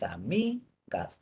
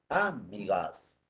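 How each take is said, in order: First: The stress is on the middle syllable. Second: The stress is on the first syllable. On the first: The speaker calls it right. "La forma es amigas" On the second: The speaker calls it wrong. "Si fuera como de drújula"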